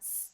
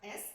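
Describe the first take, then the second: First: It is said as a bare hissing 's' sound. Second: It is said as the letter name 'ess'. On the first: The speaker calls it right. "but s, ... we pronounce this letter like s sound" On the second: The speaker calls it wrong. "not S, like in alphabet"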